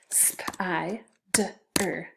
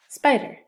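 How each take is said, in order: First: "Sp-I-d-er" in pieces, sp, long i, d, er; sounded out. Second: Said in the usual way. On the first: Shown as a demonstration. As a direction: tap out "Sp-I-d-er" with gaps. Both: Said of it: "So two syllables".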